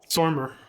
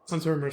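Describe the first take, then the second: First: The name begins with a hissing S sound. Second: The name begins with a buzzing Z sound. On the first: The speaker calls it wrong. "I've always just said Sormer like that" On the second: The speaker calls it right. "the S is supposed to be a Z sound"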